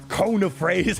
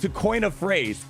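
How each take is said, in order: First: It is said in an imitated accented voice. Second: It is said in the speaker's normal voice. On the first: This is how someone else says the phrase. "and he says" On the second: This is how the phrase should be said. "It's supposed to be"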